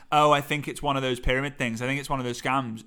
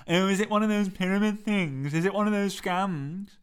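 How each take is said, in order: First: Said in the usual way. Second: Daft, put-on questioning voice, pitched up; silly character voice. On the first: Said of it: "It's not me who's saying". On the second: Shown as a demonstration. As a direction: ask it like a silly sceptic. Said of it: "someone who sounds a little bit silly".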